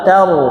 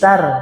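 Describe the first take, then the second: First: The syllable is said with a thick, heavy sound. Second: The syllable is said with a thin, light sound.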